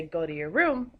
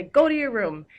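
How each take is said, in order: First: Said in the usual way. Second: "Go to your room" shouted high and loud, stress on go; exclaimed command. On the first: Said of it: "or you could say". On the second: Shown as a demonstration. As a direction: bark it as an angry order. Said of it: "that would end with an exclamation point".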